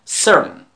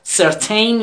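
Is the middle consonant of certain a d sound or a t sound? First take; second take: d sound; t sound. First: The middle consonant sounds like a d. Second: The middle consonant is a clear t sound. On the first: The speaker calls it right. "تی رو هم دی تلفظ میکنیم" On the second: The speaker calls it wrong. "certain نیست"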